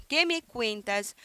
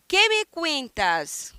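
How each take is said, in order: First: Said in the usual way. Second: Slow, lifted model question. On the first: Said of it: "teacher repeats the question". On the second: Shown as a demonstration. Teacher models the question for students, slow and clear. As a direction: draw the question out slowly for the class. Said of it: "teacher models the question slowly".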